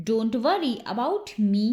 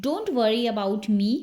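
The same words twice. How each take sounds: First: Slowed-down teaching repeat; unhurried language-drill model. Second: Said in the usual way. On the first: Shown as a demonstration.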